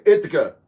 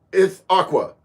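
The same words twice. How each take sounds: First: "Ithaca" as IT-uh-kuh; unsure name pronunciation. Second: "Ithaqua" as it-AH-kwuh; alternative name pronunciation. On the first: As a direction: say "Ithaca" with a plain K ending, no W. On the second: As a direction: say "Ithaqua" with a KW ending. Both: Real, not acted. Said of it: "However that's pronounced".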